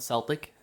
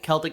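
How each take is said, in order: First: The word begins with a soft S sound. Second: The word begins with a hard K sound. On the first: This is the older way of saying it. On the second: This is the newer way of saying it.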